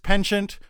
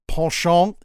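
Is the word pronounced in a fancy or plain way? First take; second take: plain; fancy. First: The word is pronounced in a plain, everyday way. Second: The word is pronounced in a fancy, refined way.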